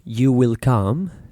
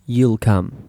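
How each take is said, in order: First: The word 'will' is said in full. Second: The word 'will' is shortened to an L sound.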